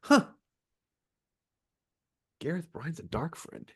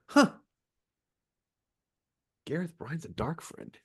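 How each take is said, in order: First: The sentence is broken up by pauses. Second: The same.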